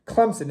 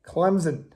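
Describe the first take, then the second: First: "Clemson" said as "Clemp-sun", a P slipped in before the S; fans' version: "Clemson" with an added P sound, Clemp-son; mispronounced with a P. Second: "Clemson" said as "Clem-zun", M straight into a Z sound, no P; the right way: "Clemson" with a soft Z, no P; correct pronunciation, no P. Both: Shown as a demonstration. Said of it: "there's no P in Clemson".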